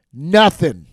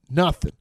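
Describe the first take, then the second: First: Loud, punched second nothing; shouted repeat. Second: Said in the usual way. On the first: Acted. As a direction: bark the word in frustration.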